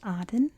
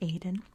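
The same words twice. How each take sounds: First: It is said the way most of the world says it. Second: It is said the British and American way. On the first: "in most of the world it's pronounced Aden" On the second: "in British English, and I believe in American English, it's pronounced Aden"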